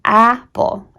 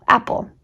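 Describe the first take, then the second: First: "apple" drawn out slowly, first vowel stretched; sounding out. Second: Said in the usual way. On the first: Shown as a demonstration. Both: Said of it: "and was like, in apple".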